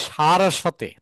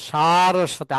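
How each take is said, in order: The two takes are said the same way.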